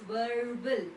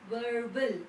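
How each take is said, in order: The two takes are said the same way.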